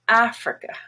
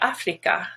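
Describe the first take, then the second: First: The unstressed vowels are reduced to schwa. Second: The unstressed vowels are full, clear vowels. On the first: The speaker calls it right. "both are pronounced schwa" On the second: The speaker calls it wrong. "very tempting to pronounce more like Afrika"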